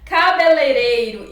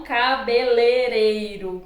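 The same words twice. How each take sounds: First: "Cabeleireiro" slowly, both ei diphthongs sounded; correct pronunciation. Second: "cabeleireiro" without the first i: ca-be-le-rei-ro; wrong pronunciation. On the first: Teacher giving the proper form, careful "Cabeleireiro". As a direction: spell out "Cabeleireiro" as ca-be-lei-rei-ro. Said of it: "a forma adequada e a forma inadequada". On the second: Teacher showing the improper form, "cabeleireiro" as cabelereiro. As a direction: drop the i in the middle of "cabeleireiro". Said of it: "e não cabeleireiro". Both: Shown as a demonstration.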